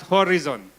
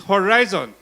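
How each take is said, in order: First: Horizon is pronounced the way commonly heard in Indonesia. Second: Horizon is pronounced differently from the common Indonesian way. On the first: The speaker calls it wrong. "here in Indonesia, it's usually spelled, uh, pronounced as Horizon" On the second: The speaker calls it right. "it's Horizon"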